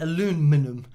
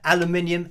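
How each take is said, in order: First: American form with four syllables, stress on 'lu'. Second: British form with five syllables, stress on 'min'. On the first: "You say aluminum" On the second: "aluminium is, is what we say"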